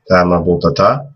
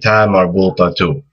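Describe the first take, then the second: First: The word ends with a final a vowel. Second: The word ends with a final u vowel. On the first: "that would also be the same with the fatha" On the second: "if you're saying another word after it, and you want to keep going"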